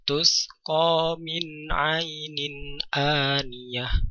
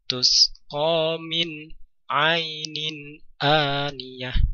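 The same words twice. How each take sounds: First: The words flow on without a pause. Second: There is a pause between min and ainin. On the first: The speaker calls it right. "dibaca mengalir namun suara nun atau tanwin dibaca dengan jelas" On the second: The speaker calls it wrong. "ada jeda di antara nun dan ain. Jangan sampai"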